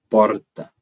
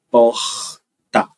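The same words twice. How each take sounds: First: The R is a rolled, multiple trill. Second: The R is a breathy, aspirated sound. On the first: "como um T P múltiplo" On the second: "como eu pronuncio, é um aspirado"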